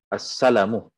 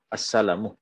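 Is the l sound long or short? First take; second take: short; short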